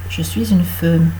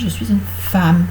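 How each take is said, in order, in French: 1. La voyelle de femme sonne comme E. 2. La voyelle de femme sonne comme A. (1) "On ne dit pas" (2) "Donc prononcé A"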